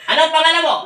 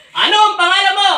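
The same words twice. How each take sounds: First: Said in the usual way. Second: Ano ang pangalan mo, louder and higher, commanding; forceful demand. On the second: Real, not acted. Exorcist demanding the spirit's name. (malakas na utos sa espiritu)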